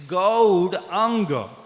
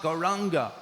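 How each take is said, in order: First: The middle consonant sounds like d. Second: The middle consonant sounds like r. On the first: The speaker calls it right. "It's Gaudanga" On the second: The speaker calls it wrong. "It's not Gauranga"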